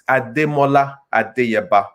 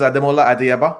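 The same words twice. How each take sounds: First: The name is said with Yoruba tones and sounds. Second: The name is said with plain English pronunciation.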